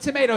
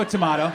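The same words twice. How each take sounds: First: Tomato said as to-MAY-to. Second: Tomato said as to-MAH-to. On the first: Comedian shrugging off funeral versus reunion, tomato as to-MAY-to. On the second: Comedian shrugging off funeral versus reunion, tomato as to-MAH-to. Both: Shown as a demonstration.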